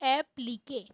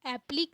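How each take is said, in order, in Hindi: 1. शब्द का अंत 'kay' की आवाज़ से होता है। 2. शब्द का अंत बिना 'k' की आवाज़ से होता है। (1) "इसका जो सही उच्चारण है" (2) "एप्लीक नहीं बोलते इसको"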